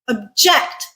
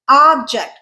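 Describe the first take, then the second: First: The stress is on the second syllable. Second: The stress is on the first syllable. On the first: It is a verb. "second syllable stressed. Verb" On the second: It is a noun meaning a thing. "first syllable stressed. Noun"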